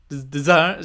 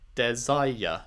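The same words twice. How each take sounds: First: The word is said with two syllables. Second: The word is said with three syllables. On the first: The speaker calls it wrong. "I guess she's saying des, desire desire desire. She's that's not how you say desire" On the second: The speaker calls it right. "You say desire is three syllables"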